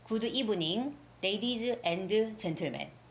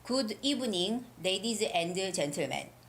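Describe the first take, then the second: Both takes have the same delivery.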